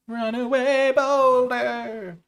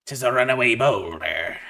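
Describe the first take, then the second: First: Sung, high, very slow drawn-out singsong; sung card name. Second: Louder pirate reading of the card. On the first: Drafter singing the card name high and slow. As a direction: croon the name like a sea shanty. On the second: Drafter reading card name in mild pirate voice. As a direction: read it like an old sea captain. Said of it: "talking like Barbossa". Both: Acted.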